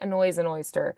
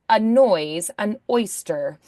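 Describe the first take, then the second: First: The words run together without glottal catches. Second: Each vowel-initial word starts with a glottal catch. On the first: The speaker calls it wrong. "if we said it really relaxed and casually" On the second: The speaker calls it right. "a glottal strike on a noise and oyster so that we hear that those words clearly start without a consonant sound"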